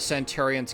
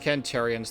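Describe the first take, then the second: First: The word begins with an s sound. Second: The word begins with a k sound.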